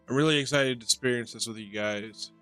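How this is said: The words are slurred together.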